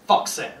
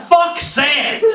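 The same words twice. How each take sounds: First: Low, soft Fuck sand; quiet grumble before the rallying cry; muttered curse. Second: Rally the crowd with it; comic rally cry to the audience; rallying shout. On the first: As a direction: grumble it to yourself. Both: Shown as a demonstration.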